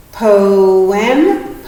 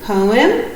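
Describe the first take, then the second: First: "Poem" stretched as po and em; careful split read of "Poem"; syllable split demo. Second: Said in the usual way. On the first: Shown as a demonstration. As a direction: say "Poem" slowly in two parts. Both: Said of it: "What would that one be".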